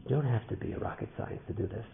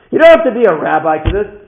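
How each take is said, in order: First: Softer, subdued start to the moral; restrained. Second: High, very loud exhortation; impassioned shout. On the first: Speaker draws the lesson for listeners, restrained and soft. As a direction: say it softly, holding back. Repeated line, restrained first take. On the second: Speaker exhorts listeners with the lesson, impassioned shout. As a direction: hammer the point home at full voice. Repeated line, shouted second take. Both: Real, not acted.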